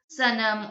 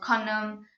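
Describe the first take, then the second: First: The word begins with an s sound. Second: The word begins with a k sound. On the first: "Probably you would pronounce it sanam" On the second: "or kanam"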